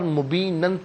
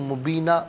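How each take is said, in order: First: The word ends with an n sound. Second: The word ends on a long a sound. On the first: The reading continues without stopping. "नाज़रीन यहाँ पर मुबीनन पढ़ेंगे" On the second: The reader stops at this point. "मुबीना वक्फ की सूरत में पढ़ा जाएगा"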